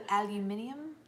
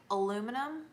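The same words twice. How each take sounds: First: "aluminium?" as al-yoo-MIN-ee-um, asked; British aluminium. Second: "aluminum" as a-LOO-mi-num; American aluminum. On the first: Host trying the British version, "aluminium?". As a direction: try the British "aluminium?" with a rise. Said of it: "Is it al". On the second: Host setting up the contrast, American "aluminum". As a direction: say "aluminum" the American way, four syllables. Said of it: "pronounce some words". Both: Shown as a demonstration.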